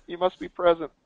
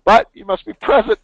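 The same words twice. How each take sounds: First: Said in the usual way. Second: But you must be present with BUT hit much higher and louder; insistent emphasis. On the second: Real, not acted. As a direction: punch BUT, then must be present, loud and high. Stressing rule for prize giveaway.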